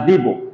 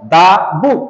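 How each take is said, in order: First: The word 'the' sounds like 'thee'. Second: The word 'the' sounds like 'thuh'. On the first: The speaker calls it wrong. "না দি বুক" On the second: The speaker calls it right. "That's why আমাদের উচ্চারণটা করতে হবে দা বুক"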